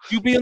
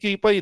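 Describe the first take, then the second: First: The name ends with a 'pee' sound. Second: The name ends with a 'pie' sound. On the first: The speaker calls it right. "yung tamang pronunciation" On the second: The speaker calls it wrong.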